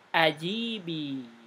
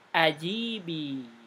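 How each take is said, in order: First: The middle i vowel is long. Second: The same.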